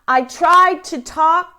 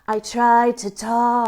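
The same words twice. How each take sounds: First: It is said clearly, projected without extra air. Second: It is said with extra breathy air added. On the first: "you're going to say it across the room" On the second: "add in a huh sound, excess air"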